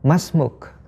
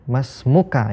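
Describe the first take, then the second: First: The word ends without a final vowel sound. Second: The word ends with a final vowel sound. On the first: It is the casual conversational form. "tidak terlalu memperhatikan harokat yang paling akhir ya. Kita cukup mengucapkan masmuk" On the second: It is the full formal form. "Masmuka ketika lawan bicara kita adalah laki-laki"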